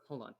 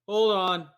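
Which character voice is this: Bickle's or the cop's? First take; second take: Bickle; cop. First: It is spoken in Bickle's character voice. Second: It is spoken in the cop's character voice. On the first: The speaker calls it wrong. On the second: The speaker calls it right.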